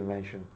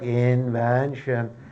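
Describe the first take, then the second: First: It flows smoothly without separating syllables. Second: Each syllable is separated evenly, Turkish-style.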